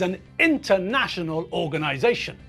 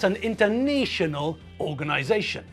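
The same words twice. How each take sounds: First: The middle 'na' has the short vowel of 'national'. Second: The middle 'na' has the long vowel of 'nation'. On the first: The speaker calls it right. "So that means that the U N is an international organization" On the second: The speaker calls it wrong. "is not an international organization. No, don't be silly"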